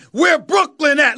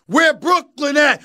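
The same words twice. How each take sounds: First: Said in the usual way. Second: Emphatic call. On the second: Real, not acted.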